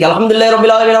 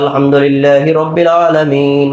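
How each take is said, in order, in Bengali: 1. শব্দগুলো দ্রুত ও তাড়াহুড়ো করে পড়া হচ্ছে। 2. শব্দগুলো ধীরে ও শান্তভাবে পড়া হচ্ছে।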